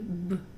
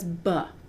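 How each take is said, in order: First: The b sound is cut short, no vowel. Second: The b sound has an added uh vowel. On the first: The speaker calls it right. "Notice that I cut that sound before the U" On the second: The speaker calls it wrong. "Notice that we're adding a short U sound to the B"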